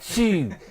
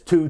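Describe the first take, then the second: First: The syllable has a fronted French 'u' vowel. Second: The syllable has a back English 'oo' vowel. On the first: "it's a French book ... the pronunciation for two is chi" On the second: "It says two"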